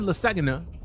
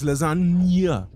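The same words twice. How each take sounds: First: The middle sounds like a plain 'na' sound. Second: The middle sounds like a 'nya' sound. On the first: The speaker calls it wrong. "It's not lasagna" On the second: The speaker calls it right. "The nya. The nya"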